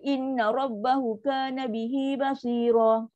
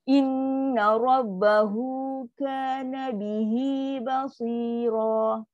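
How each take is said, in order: First: The phrase is rushed with short vowels. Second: The vowels after hu and hi are lengthened. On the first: The speaker calls it wrong. "Baca mentam je laju. So salah" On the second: The speaker calls it right. "kita baca tadi kan bunyi dua akad"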